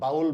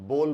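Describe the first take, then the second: First: The vowel sounds like ow. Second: The vowel sounds like oh. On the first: The speaker calls it wrong. "इसका उच्चारण गलत है" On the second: The speaker calls it right. "इसको हम बोल बोलते हैं"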